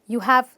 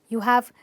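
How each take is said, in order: No difference in how they are said.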